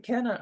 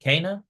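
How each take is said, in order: First: Kenna. with a short eh, KEN-na, falling and sure; confident final take: Kenna; landing on Kenna. with certainty; settled pronunciation. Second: Kana? with an open ah in the first syllable, KAH-na, rising like a question; tentative guess at the name: Kana?; saying Kana? unsure, asking; first try at the name. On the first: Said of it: "I got it". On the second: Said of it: "Am I saying that right?". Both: Real, not acted.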